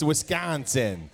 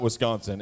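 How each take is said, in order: First: "Wisconsin" said the local way, slow, with a clear "-sin" ending. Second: "Wisconsin" said the outsider way, nasal middle vowel and a weak "sən" ending; outsider's Wisconsin. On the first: Born-and-raised pastor teaches the crowd the local "Wisconsin". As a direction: draw out "Wisconsin" with a crisp "sin" at the end. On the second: Pastor shows the wrong way to say his home state, "Wisconsin" with "-sən". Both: Shown as a demonstration. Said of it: "that's how they say it there".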